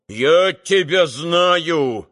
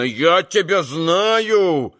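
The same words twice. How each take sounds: First: Slow, stress on тебя, falling; irritated exclaiming. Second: Slow, stress on знаю, falling; irritated exclaiming. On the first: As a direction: hammer тебя slowly and crossly. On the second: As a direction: lean on знаю slowly and crossly. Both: A narrator's reading. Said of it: "восклицал он раздражённо".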